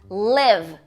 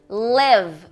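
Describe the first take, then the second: The two takes are said the same way.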